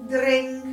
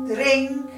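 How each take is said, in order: Both takes have the same delivery.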